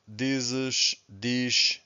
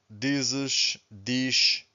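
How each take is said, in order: No difference in how they are said.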